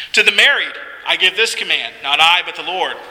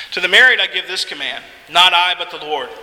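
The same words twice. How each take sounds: Both takes have the same delivery.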